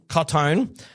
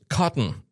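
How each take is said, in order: First: The second syllable sounds like 'town'. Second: The second syllable sounds like 'ton'. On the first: The speaker calls it wrong. "I was saying Cottown" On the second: The speaker calls it right. "but no, it's Cotton, supposedly"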